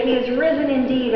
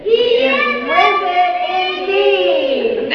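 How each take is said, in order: First: Said in the usual way. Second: Much higher, very slow, sung "He is risen indeed"; slow sung Easter response. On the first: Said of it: "you say". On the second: Shown as a demonstration. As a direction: chant "He is risen indeed" slowly up high. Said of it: "Let me say it".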